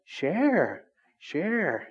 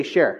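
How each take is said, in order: First: "Share. Share." stretched out slowly with a falling, coaxing tune like a parent; drawn-out parent's "Share". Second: Said in the usual way. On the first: Shown as a demonstration. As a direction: say "Share" twice, drawn out and falling, like nagging a toddler. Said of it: "you even say it like that". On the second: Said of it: "Why can't you just say".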